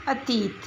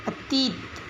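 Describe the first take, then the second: First: अतीत said the standard way, dental; correct pronunciation. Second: अतीत with a hard retroflex t at the start; अतीत said with the wrong t; wrong pronunciation. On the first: (अतीत का शुद्ध उच्चारण) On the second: (अतीत का अशुद्ध उच्चारण) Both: Shown as a demonstration. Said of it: "इन शब्दों का उच्चारण करते हैं".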